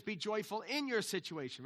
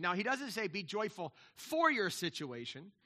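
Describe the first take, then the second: First: "in" stressed with a firm fall. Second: "for" lifted and leaned on with a rise; stress on for. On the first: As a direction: hit the word "in" as the right reading. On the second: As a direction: lean on the word "for" as the wrong reading. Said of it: "He says, "Be joyful in your situation". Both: Shown as a demonstration.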